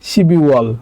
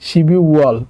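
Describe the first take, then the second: Both takes have the same delivery.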